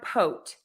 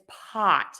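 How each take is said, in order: First: The vowel is a rounded 'oh' sound. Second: The vowel is an open 'ah' sound. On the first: The speaker calls it wrong. "It's not a pote" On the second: The speaker calls it right. "open your mouth very wide for that ah"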